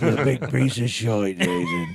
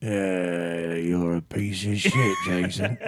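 First: Broad English insult with "shite" as "shoyt"; corrected mock English insult, laughing along; playfully nasty English accent, oy vowels; mean English accent. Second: Drawn-out mock English insult; playfully nasty old English voice; mean English accent. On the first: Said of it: "I believe it's shite". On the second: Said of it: "Now say something mean".

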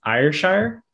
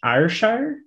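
First: A high, rising Scottish "Ayrshire?"; Scottish accent attempt. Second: A tentative, rising Scottish "Ayrshire?"; unsure try at a Scottish "Ayrshire?", lifting at the end; Scottish accent attempt. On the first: Checking the place name, a higher Scottish "Ayrshire?". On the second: While looking up the castle, testing a Scottish "Ayrshire?". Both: Shown as a demonstration. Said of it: "I'm trying to say it with a Scottish accent".

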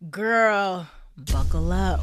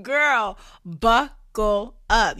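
First: Excited. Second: Much louder, slow, hyped buckle up. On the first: Hyped warning to listeners. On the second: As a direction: really sell the warning, loud. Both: Acted.

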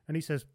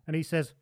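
Both takes have the same delivery.

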